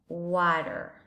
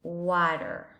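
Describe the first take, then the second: First: It is said in an American English accent. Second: It is said in an American English accent.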